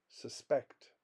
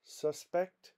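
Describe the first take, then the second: First: SusPECT, the verb, with stress on PECT; stress on second syllable. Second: SUSpect, the noun, pitched high on SUS; stress on first syllable. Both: Shown as a demonstration. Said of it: "More examples".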